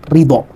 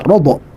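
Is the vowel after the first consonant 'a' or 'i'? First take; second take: i; a. First: The first syllable has the vowel 'i'. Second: The first syllable has the vowel 'a'. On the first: "dengan mengkasrohkan huruf ro sehingga terbaca ridho" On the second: "dengan memfathahkan huruf ro, yaitu dibaca rodok"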